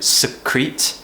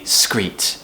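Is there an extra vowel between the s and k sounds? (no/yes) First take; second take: yes; no. First: An extra vowel separates the s and k sounds. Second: The s and k sounds run together without a vowel. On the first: The speaker calls it wrong. "Don't do secrete" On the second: The speaker calls it right. "It needs to be screet"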